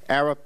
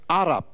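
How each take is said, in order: First: It is said with an English pronunciation. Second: It is said with an Arabic pronunciation. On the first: This is how English speakers say it. "is English pronunciation" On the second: This is how Arabs themselves say it. "that's how they pronounce it"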